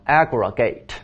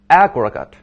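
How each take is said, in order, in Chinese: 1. 最后一个音节是完整的元音。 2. 最后一个音节是弱化的轻元音。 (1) "做动词的含义的时候念成" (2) "弱读"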